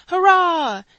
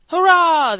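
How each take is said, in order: First: Loud falling hurrah; crowd cheer. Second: Loud ragged hurrah; hoarse crowd cheer. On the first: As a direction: bellow it on cue. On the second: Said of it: "they cried". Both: A narrator's reading.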